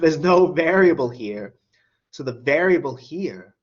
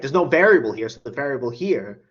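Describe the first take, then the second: First: It is said slowly. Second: It is said fast.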